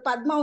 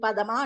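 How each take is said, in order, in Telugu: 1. d, m కలుస్తాయి, మధ్యలో ఏ అచ్చూ ఉండదు. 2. అదనపు అచ్చు d, m ను విడదీస్తుంది. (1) "ఇప్పుడు పద్మ ఉందనుకోండి" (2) "పదమా అంటారు వాళ్ళు"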